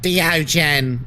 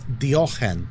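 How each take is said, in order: First: The middle consonant is a hard g. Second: The middle consonant is a throaty ch. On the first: The speaker calls it wrong. "it's not Diogen" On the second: The speaker calls it right. "it's Diochen"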